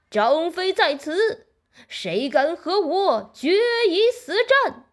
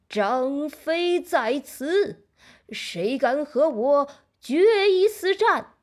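First: The voice is very loud and booming. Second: The voice is trembling and lacks force. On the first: The speaker is bold and fearless. "声音响得就像一声炸雷。" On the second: The speaker has lost confidence. "声音听起来颤抖抖的，再也没有先前的豪气了。"

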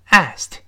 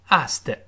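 First: The ending is said as a short t sound. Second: The ending is said as an extra 'id' syllable. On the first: The speaker calls it right. "叫asked" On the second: The speaker calls it wrong. "而不要读asked，不这么读"

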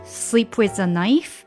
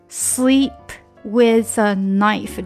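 First: The phrase is said quickly, p linked into with. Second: The phrase is said slowly, words kept apart. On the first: "慢慢加速以后这个p 和with 就会连在一起了" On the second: "这是慢的"

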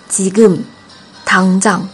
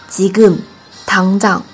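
Both takes have the same delivery.

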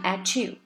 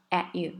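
First: The t links smoothly into 'you'. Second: The t is very weak, almost swallowed. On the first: "它没有读成at you" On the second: "这个t 很弱很弱，被吞掉的感觉"

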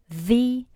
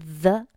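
First: The vowel is a long 'ee' sound. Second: The vowel is a short 'uh' sound. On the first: The speaker calls it right. "它读作the" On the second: The speaker calls it wrong. "不读the"

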